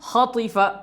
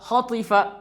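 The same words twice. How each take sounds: Both takes have the same delivery.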